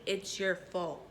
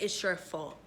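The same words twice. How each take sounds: First: It's your fault slowed right down, softer, weight on your; a slow, pointed self-reproach; slow emphatic repeat. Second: Said in the usual way. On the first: Shown as a demonstration. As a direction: drag out your fault to drive it home. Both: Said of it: "You feel me?".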